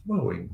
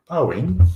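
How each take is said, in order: First: Said in the usual way. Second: "Boeing" pitched way up and loud with a rising end; playful high, loud "Boeing"; exaggerated Boeing. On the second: Shown as a demonstration. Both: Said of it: "my Dutch accent".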